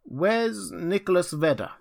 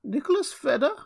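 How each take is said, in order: First: Raised, searching question; bewildered old Rip. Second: Put-on very high, reedy old voice, questioning; thin, piping old man. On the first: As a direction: call out for a missing friend. Rip inquires after his old friend. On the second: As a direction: pipe it up like a puzzled old man. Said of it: "an old man replied in a thin, piping voice". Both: A narrator's reading.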